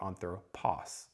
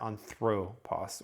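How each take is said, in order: First: The stress is on the last syllable. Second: The stress is on the second syllable. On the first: "I could put it on the final syllable" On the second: "it's going to put the emphasis there"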